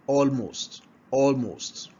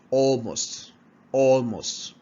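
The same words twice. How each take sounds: The two takes are said the same way.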